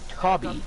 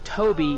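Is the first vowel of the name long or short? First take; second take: short; long. First: The first vowel is short, as in 'Dobby'. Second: The first vowel is long, as in 'toe'. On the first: The speaker calls it wrong. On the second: The speaker calls it right.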